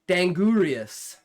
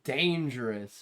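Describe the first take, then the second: First: The g is hard, sounded out letter by letter. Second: The g is soft, in the usual spoken form. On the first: A child sounding out an unfamiliar word. The speaker calls it wrong. "how I'm pronouncing it because of phonics" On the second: The word as it is normally said. The speaker calls it right. "Obviously dangerous"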